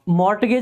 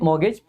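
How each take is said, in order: First: The word is said with a t sound. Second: The word is said with no t sound. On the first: The speaker calls it wrong. "मॉर्टगेज नहीं पढ़ते, टी silent रहता है" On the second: The speaker calls it right. "इसको मॉर्गेज पढ़ते हैं"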